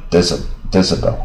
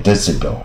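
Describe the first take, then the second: First: "decibel" as DESS-uh-bel; American reading. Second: "decibel" as DESS-ih-bel; alternative reading. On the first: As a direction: say "decibel" with a weak uh in the middle. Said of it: "但是美国人常念呃". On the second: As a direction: give "decibel" an i sound in the middle. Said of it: "但念decibel也可以啊". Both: Shown as a demonstration.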